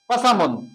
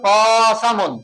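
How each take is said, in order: First: All three syllables are said equally short. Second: One vowel is drawn out longer than the others. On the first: The speaker calls it right. "এটা শুদ্ধ" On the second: The speaker calls it wrong. "আমি যদি কোনটা লম্বা হয়, ... ভুল"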